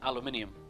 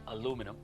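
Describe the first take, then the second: First: It is said in a British pronunciation. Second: It is said in an American pronunciation.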